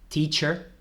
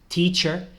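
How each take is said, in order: The two takes are said the same way.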